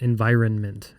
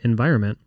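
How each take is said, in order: First: The second n sound is clearly pronounced. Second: The second n sound is dropped. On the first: The speaker calls it right. "I have to think about it to say environment" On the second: The speaker calls it wrong. "the second "n" being silent"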